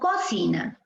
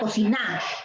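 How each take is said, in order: First: The stress is on the first syllable. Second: The stress is on the last syllable. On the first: "Si fuese en co, diríamos" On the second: "Si fuese en na, sería"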